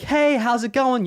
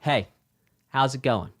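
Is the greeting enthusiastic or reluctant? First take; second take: enthusiastic; reluctant. First: It sounds cheerful and enthusiastic. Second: It sounds flat and reluctant.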